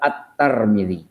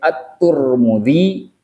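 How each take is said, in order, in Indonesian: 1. Suku kata pertama nama itu punya vokal a. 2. Suku kata pertama nama itu punya vokal u. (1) "boleh At-Tar" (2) "boleh At-Tur"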